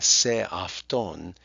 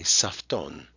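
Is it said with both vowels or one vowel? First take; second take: both vowels; one vowel. First: Both vowels are pronounced separately. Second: The first vowel is dropped. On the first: "putting two vowel sounds together" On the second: "cut the first one out and just say safton"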